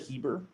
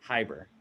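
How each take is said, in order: First: The name rhymes with Bieber. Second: The name does not rhyme with Bieber.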